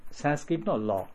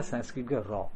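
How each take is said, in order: First: "ロ" in "サンスクリットのロ" starts with an English L; tongue touches upper teeth on "ロ"; L sound. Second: "ロ" in "サンスクリットのロ" starts with an R; tongue stays low on "ロ"; R sound. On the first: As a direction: make the final "ロ" a la. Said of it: "英語のLがサンスクリットのロ". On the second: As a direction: make the final "ロ" a ra. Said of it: "英語のR". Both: Shown as a demonstration.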